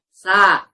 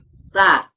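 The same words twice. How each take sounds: First: The consonant has no hissing sound. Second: The consonant has a clear hissing sound. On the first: The speaker calls it wrong. "Tidak boleh tidak ada desisan" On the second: The speaker calls it right. "huruf yang berdesis"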